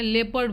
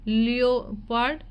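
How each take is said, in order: First: It is said with two syllables, lep-erd. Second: It is said with three syllables, lee-oh-pard. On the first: The speaker calls it right. "लेपर्ड बोलते हैं" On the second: The speaker calls it wrong. "लियोपार्ड नहीं बोलते हैं"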